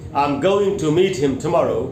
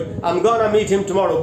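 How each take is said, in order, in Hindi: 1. 'going to' शब्द पूरे बोले जाते हैं। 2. 'going to' शब्द घटकर 'gonna' बोले जाते हैं। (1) "अगर ये सेंटेंस है" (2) "अब इसको ऐसे बोल दे कोई"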